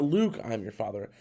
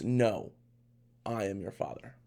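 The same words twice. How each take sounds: First: "Luke" leading straight into the line; misquoted line. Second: "No" set apart by a long pause; actual line. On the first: Correcting fans' famous misquote, "Luke" run straight on. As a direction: run "Luke" into the rest without a break. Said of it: "It's not". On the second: Giving fans the real Vader line, "No" set apart. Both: Shown as a demonstration.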